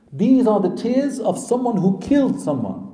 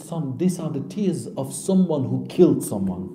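First: KILLED stressed, higher pitch, insistent retelling; emphatic insistence. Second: Said in the usual way. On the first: Retold or imitated. Mother insisting to her crying son, emphatic. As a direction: press the point on "killed", voice raised in pitch.

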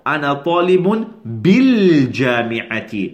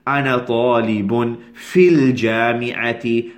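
First: بالجامعة said carefully as the right version; teacher models the correct بالجامعة after rejecting في; correct form. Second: Teacher models في الجامعة before correcting it; unneeded wording. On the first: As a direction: stress بالجامعة clearly as a model answer. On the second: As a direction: say في الجامعة with the extra في, as the form to avoid. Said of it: "There's no need to say". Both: Shown as a demonstration.

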